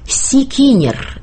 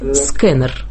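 First: A vowel is inserted between the opening consonants. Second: The opening consonants run together with no vowel. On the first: The speaker calls it wrong. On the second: The speaker calls it right.

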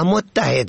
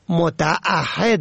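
First: It has a doubled t and no glottal stop. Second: It has a glottal stop and a long middle vowel. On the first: The speaker calls it wrong. "کلمه متعهد را متحد می خوانند" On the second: The speaker calls it right. "متعهد است نه متحد است"

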